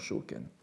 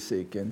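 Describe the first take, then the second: First: The name begins with the syllable 'sho'. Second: The name begins with the syllable 'sei'. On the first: This is the reading in common use today. "sinon Shoken" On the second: This is the older reading favoured by strict Tendai practice. "Si vous voulez faire très purisme Tendai, vous prononcez Seiken"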